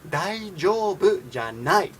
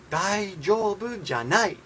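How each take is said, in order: The two takes are said the same way.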